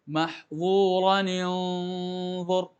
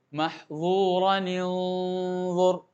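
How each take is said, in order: The two takes are said the same way.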